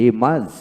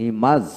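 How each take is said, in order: Both takes have the same delivery.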